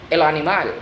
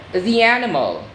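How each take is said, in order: First: "animal" in Spanish, stressed on the last syllable, ah-nee-MAHL; Spanish pronunciation. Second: Said in the usual way. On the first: Shown as a demonstration. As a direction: say "el animal" as Spanish, landing on the final "mal". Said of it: "The stress word in the last syllable". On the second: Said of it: "or el animal".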